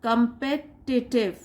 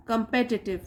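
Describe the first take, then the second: First: "Competitive" drawn out very slowly in separate syllables; syllable-by-syllable pronunciation. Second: Said in the usual way. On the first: Shown as a demonstration. Teacher shows learners how to read it, "Competitive" in slow syllables. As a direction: break "Competitive" into com-pe-ti-tive, slowly. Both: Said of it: "कैसे पढ़ोगे आप इसको?".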